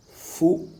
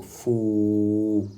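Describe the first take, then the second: First: Said in the usual way. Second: "fou" with the ou held long; long vowel. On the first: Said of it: "sert d'outil d'allongement à la voyelle". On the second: Shown as a demonstration. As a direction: stretch the vowel in "fou" on one even note. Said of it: "sert d'outil d'allongement à la voyelle ou".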